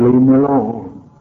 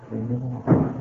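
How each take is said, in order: First: Said in the usual way. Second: Retold plea. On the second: Repeat of her plea, softer.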